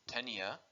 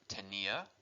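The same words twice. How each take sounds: First: The stress is on the first syllable. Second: The stress is on the second syllable. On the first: It means tapeworm. "if I don't put my accent on tenía" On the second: It means I had. "the correct way to say it"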